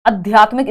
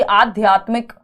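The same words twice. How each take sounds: First: "आध्यात्मिक" opened with short अ instead of आ; short first vowel. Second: "आध्यात्मिक" opened with a long आ; correct long first vowel. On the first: Teacher showing a faulty option, "आध्यात्मिक" with short opening अ. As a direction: say "आध्यात्मिक" as if written अध्यात्मिक. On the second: Teacher checking options for students, "आध्यात्मिक" with long opening आ. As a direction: say "आध्यात्मिक" with a full long आ at the start. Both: Shown as a demonstration. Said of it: "इसमें अ गायब है".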